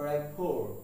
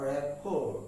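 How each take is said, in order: Both takes have the same delivery.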